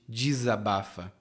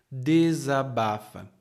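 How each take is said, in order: First: The first syllable is reduced in relaxed speech. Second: Each syllable is pronounced carefully and fully. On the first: "no dia a dia nós também falamos desabafa, como de" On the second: "aqui minha pronúncia é bem cuidadosa"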